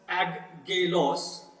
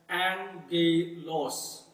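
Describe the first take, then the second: First: The middle is said with a hard g sound. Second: The middle is said with an ng sound. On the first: The speaker calls it wrong. "it will not pronounce as aggelos" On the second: The speaker calls it right. "it would rather pronounce as angelos"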